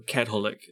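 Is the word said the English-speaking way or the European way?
European. The word has the European pronunciation.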